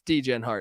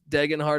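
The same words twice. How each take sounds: First: The first part sounds like 'dee-jen'. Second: The first part sounds like 'deg-en'. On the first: The speaker calls it wrong. "I like to pronounce this guy's name wrong on purpose" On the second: The speaker calls it right. "I know it's Degenhart or whatever"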